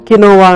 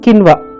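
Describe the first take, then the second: First: The word is said in three syllables. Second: The word is said in two syllables. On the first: The speaker calls it wrong. "కొంతమంది ఏమనుకుంటారు? కినోవా అనుకుంటారు" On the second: The speaker calls it right. "Correct pronunciation"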